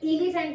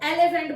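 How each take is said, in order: First: The first vowel is an 'i' sound. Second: The first vowel is an open 'e' sound. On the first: The speaker calls it wrong. "इलीफेंट नहीं बोलते हैं" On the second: The speaker calls it right. "हम ई को एलिफेंट बोलते हैं"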